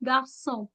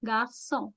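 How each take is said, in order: First: The middle consonant sounds like s. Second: The middle consonant sounds like s.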